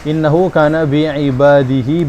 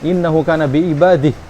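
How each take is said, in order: First: The final -hi vowel is pronounced and lengthened. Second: The phrase stops on h without the final vowel. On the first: The recitation continues into the next word. "ada matnya itu ketika dilanjutkan" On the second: The recitation stops at this word. "Kalau berhenti di ha itu gimana?"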